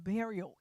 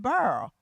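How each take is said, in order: First: The word is said in full, three syllables. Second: The word is squeezed into one syllable. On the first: "it's actually pronounced burial" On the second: "How do we say it in South Mississippi?"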